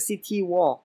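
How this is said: It is said with a Chinese accent. "ถ้าให้พูดในสำเนียงจีนคือ"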